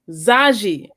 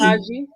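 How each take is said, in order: First: The name begins with a z sound. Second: The name begins without a z sound. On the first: The speaker calls it right. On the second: The speaker calls it wrong. "am I saying that right?"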